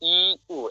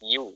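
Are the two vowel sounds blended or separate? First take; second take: separate; blended. First: The two vowels are said as separate sounds. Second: The two vowels glide together into one sound. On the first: The speaker calls it wrong. "যেমন ই উ এমনি করবেন না" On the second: The speaker calls it right. "ডাইরেক্ট করবেন ইউ"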